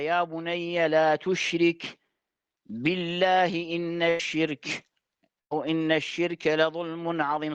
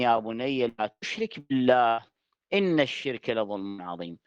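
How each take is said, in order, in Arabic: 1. يأتي وقف قبل 'billah'، فيبدأ عبارة جديدة. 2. يتصل 'billah' بما قبله دون وقف. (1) "فيقف هكذا" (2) "الآية تحدثت عن لسان لقمان الحكيم"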